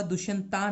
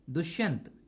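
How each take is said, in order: First: दुष्यंता with a long aa added at the end; wrong final vowel. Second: दुष्यंत ending on the consonant t, no final aa; correct short ending. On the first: Teacher warns students off the English spelling, wrong final vowel. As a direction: draw out the mistaken final aa in दुष्यंता. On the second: Teacher gives students the corrected name, correct short ending. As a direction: stop दुष्यंत right at the final t. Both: Shown as a demonstration. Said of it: "दुष्यंता नहीं पढ़ना है".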